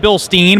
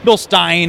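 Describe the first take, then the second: First: The second syllable rhymes with 'seen'. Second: The second syllable rhymes with 'line'. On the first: "You can say Bill Steen" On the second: "it's a German company, so Bill Stein is the correct pronunciation"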